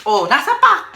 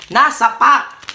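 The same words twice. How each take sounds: First: Said in the usual way. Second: "Nasa pack" drawn out slowly; slow repeat. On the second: Shown as a demonstration. Mother repeats daughter's words slowly, puzzled. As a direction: stretch out "Nasa pack" syllable by syllable.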